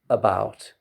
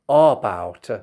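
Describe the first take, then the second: First: The first vowel is a short central vowel. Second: The first vowel is not the central vowel. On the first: The speaker calls it right. "No, it is about" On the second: The speaker calls it wrong. "Arabs sometimes they say about"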